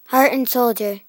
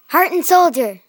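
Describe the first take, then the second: First: It is said in a calm, plain way. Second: It is said in an excited way.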